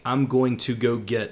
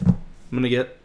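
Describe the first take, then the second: First: Each word is said separately and in full. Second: The words are squashed together into a mumble. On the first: "and that is" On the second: "we can literally smash everything into I'm gonna get"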